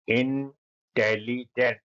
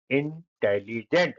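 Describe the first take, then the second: First: intelligent drawn out slowly, each syllable apart; slow syllable demo. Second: Said in the usual way. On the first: Shown as a demonstration. Teacher to pupils, syllables stretched very slowly. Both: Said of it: "उच्चारण करो जिससे आपका pronunciation अच्छा हो".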